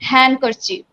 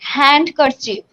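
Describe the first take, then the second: First: The D sound is silent. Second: The D sound is pronounced. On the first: The speaker calls it right. "There I didn't pronounce it d" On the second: The speaker calls it wrong. "it's not a handkerchief"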